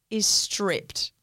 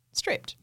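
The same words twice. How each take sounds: First: Said in the usual way. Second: Breathy whispered echo, pitched up. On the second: Shown as a demonstration. Echoing to her co-host that the bed was stripped, whispered. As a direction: hush it like a shocked secret.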